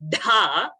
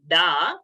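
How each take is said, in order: First: The consonant is said with a breathy puff. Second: The consonant is said without a breathy puff. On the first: The speaker calls it right. "then Dha" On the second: The speaker calls it wrong. "and not Ru, Da"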